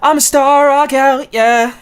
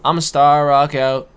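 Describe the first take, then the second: First: It is said forcefully, with much energy. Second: It is said flatly, with little energy.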